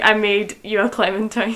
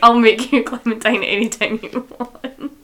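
First: French-tinged delivery. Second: A loud, laughing hint of French suave; mock French charm. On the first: Retold or imitated. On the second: Host re-quoting Luke to her co-host, laughing mock French charm. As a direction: play the French lover's line half laughing. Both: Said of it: "is so French".

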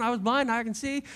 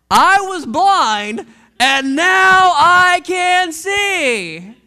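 First: Said in the usual way. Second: Louder, very slow and drawn out; triumphant proclamation. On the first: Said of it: "He just keeps saying". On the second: Acted. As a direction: proclaim "I was blind, and now I can see" slowly, loud and rising. Healed man's climactic testimony.

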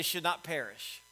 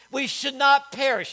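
First: Said in the usual way. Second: "not" hit hard in "We should not perish"; stress on not. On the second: Shown as a demonstration. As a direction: lean on "not" so they echo it. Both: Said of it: "Everybody say".

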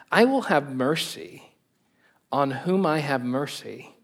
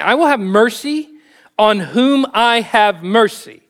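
First: Said in the usual way. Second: Higher and louder, with WILL and WHOM stressed and slowed; emphatic restatement. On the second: Shown as a demonstration. Preacher repeats God's words to the congregation, emphatic. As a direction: lean hard on will and whom. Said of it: "restating the quote forcefully".

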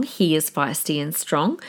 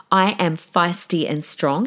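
First: He is feisty and strong, with He leaned on; stress on He. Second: I am feisty and strong, with I leaned on; stress on I. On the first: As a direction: put the weight on He, not the rest. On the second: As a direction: put the weight on I, not the rest. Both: Real, not acted. Contrast between her and husband.

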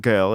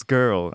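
First: Put-on "girl" with no r, like "gel"; mimicked wrong pronunciation. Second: Put-on "girl" with a full American r; corrected American pronunciation. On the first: Friend correcting him, mimics "girl" without the r. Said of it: "it's not girl". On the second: Friend correcting him, "girl" with American r. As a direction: stress the r in "girl". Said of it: "it's girl".

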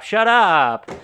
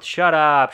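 First: Higher and louder, a yelled shut up; full mock shout. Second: Mock angry shout. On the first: Cops silencing the ranting Kelly with a loud shout. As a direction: blast the second shut up as a climax. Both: Retold movie argument escalates.

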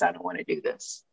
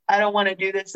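First: Trailing off quietly; fading to quiet. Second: Said in the usual way. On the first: Retold or imitated. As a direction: let it fade almost to nothing. Self-talk before quitting drinking.

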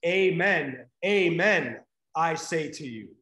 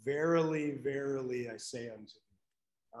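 First: Amen, amen said loud and ringing, each with a falling close; ringing Greek rendering; emphatic Amen. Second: Verily, verily, I say unto you read soft and low, fading away; fading archaic quote; hushed King James reading. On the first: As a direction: proclaim Amen, amen with full authority. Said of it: "So literally what Jesus says is". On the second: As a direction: quote the old King James words quietly, almost to yourself. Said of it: "I like the King James Version". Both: Retold or imitated.

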